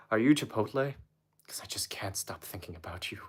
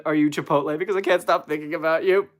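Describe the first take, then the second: First: Soft, sinking into a whisper; hushed pickup line. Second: Said in the usual way. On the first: Pretend. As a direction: whisper it like an intimate come-on. Redoes pickup line as seductive whisper.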